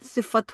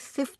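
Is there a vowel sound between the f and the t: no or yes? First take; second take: yes; no. First: A short a vowel separates the f and t. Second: The f and t run together with no vowel. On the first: This is the proper Arabic way of saying it. The speaker calls it right. "सिफ़त होता है" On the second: This is the everyday Urdu way of saying it. The speaker calls it wrong. "अरबी में सिफ़्त नहीं होता"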